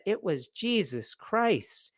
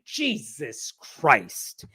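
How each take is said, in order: First: Soft, slow imitation of an earnest kid; hushed, sweetly sincere mock answer; innocent boy answering. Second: Drawn-out, frustrated muttered oath; slow, annoyed mock curse; exasperated swearing. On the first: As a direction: answer like a devout little boy, hushed and drawn out. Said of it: "And the boy said". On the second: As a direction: imitate an exasperated kid, stretching both words slowly. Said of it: "you don't use that tone".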